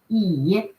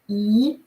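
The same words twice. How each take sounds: First: The pitch dips low then rises. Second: The pitch rises from mid to high. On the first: It means chair. "Low, uh, falling rising tone" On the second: It means aunt. "E with the rising tone"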